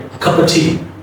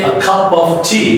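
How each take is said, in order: First: The small words are reduced to a weak schwa. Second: The small words are said with full vowels. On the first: The speaker calls it right. "you say a cup of tea, ... using schwa sound here" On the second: The speaker calls it wrong. "you don't say a cup of tea"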